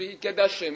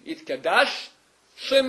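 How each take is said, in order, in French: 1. Les deux mots s'enchaînent sans pause. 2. Une pause nette sépare les deux mots. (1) "c'est-à-dire un seul chine" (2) "Il faut bien faire un arrêt entre les deux"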